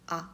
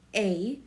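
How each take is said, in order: First: The vowel is a plain open Korean sound. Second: The vowel sounds like an English letter name. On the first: The speaker calls it right. "it's a" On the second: The speaker calls it wrong. "So a in English, make sure you don't pronounce this as a"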